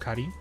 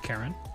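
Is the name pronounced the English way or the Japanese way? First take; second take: Japanese; English. First: The name has a Japanese pronunciation. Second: The name has an English pronunciation. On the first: The speaker calls it right. "she's technically Karin. Karin, not Karen" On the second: The speaker calls it wrong. "not Karen"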